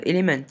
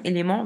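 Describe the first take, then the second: First: French speaker's English-accented "Element"; "Element" pronounced the English way. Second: Said in the usual way. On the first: Shown as a demonstration. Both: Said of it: "avec l'accent anglais".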